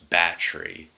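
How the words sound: It is said in a British way.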